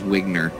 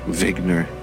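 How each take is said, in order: First: The name begins with a W sound. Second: The name begins with a V sound. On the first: It is said the English way. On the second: It is said the German way.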